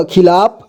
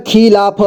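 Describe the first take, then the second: First: Said in the usual way. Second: खिलाफ as खि-ला-फ; syllable by syllable. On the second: Shown as a demonstration. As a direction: sound out खिलाफ in three parts. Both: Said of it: "एक ही बार में पढ़ेंगे".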